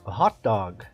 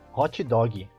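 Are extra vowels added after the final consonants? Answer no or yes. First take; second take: no; yes. First: Both words end cleanly on their consonants. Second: Extra vowels follow the final consonants. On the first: The speaker calls it right. "Ao invés de nós falarmos" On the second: The speaker calls it wrong. "nós falamos"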